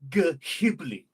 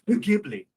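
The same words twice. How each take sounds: First: It begins with a hard g and an h. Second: It begins with a w sound, like whip. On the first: "Can we pronounce it phonetically?" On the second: "like with the W H"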